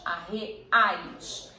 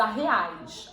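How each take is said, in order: First: "arreais" slowly broken up, A-RRE, then AIS; syllable separation. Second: Said in the usual way. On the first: Shown as a demonstration. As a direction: repeat "arreais" in slow, detached syllables, AIS set apart at the end. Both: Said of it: "A mesma coisa".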